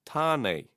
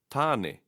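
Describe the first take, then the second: First: "tāne" ending in a long ay; wrong "tāne", final e turned into ay; mispronounced final e. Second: "tāne" ending in eh, as in egg; short eh closing "tāne", no ay glide; correct final e. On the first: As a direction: say "tāne" as tah-nay. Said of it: "is not tāne". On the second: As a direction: say "tāne" as tah-neh. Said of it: "The sound is always e". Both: Shown as a demonstration.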